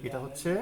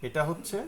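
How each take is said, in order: The two takes are said the same way.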